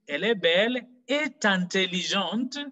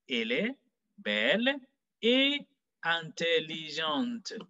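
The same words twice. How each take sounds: First: The t of et links into intelligente. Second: Et stays separate from intelligente, without linking. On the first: The speaker calls it wrong. "this will be a serious mistake" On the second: The speaker calls it right. "It doesn't take a liaison"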